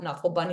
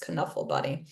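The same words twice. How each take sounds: First: The K at the start is silent. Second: The K at the start is pronounced. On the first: The speaker calls it wrong. "It is not" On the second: The speaker calls it right. "in Dutch, the K is hard"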